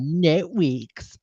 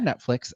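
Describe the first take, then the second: First: The word is said in a childlike, babyish way. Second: The word is said in the standard adult way. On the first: The speaker calls it wrong. "I pronounced it wrong" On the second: The speaker calls it right. "as adults will say"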